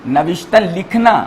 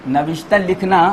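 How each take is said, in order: Both takes have the same delivery.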